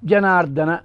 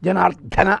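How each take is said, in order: First: The d sound is plain, without a breath. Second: The d sound has a strong breath after it. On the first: The speaker calls it right. "దానికి ఒత్తు లేదు" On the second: The speaker calls it wrong. "జనార్దన అన్నం పట్టుకుని పాపం"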